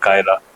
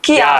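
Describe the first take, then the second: First: The name begins with the sound 'kai'. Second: The name begins with the sound 'kee'. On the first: The speaker calls it wrong. "Pronounce करना में हमेशा problem कर" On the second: The speaker calls it right. "पर favourite है वो कियारा"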